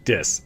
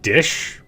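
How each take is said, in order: First: The word ends with a plain 's' sound. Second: The word ends with a clear 'sh' sound. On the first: "So pr- not pronouncing the sh" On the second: "obviously she's saying dish"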